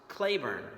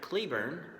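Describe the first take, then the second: First: The first syllable sounds like 'clay'. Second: The first syllable sounds like 'cleh'. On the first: This is how it was said in the 1860s. The speaker calls it right. "during the war, it was pronounced Claiborne" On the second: This is how the spelling suggests it today. The speaker calls it wrong. "Today, it looks like he pronounced his name Patrick Cleburne"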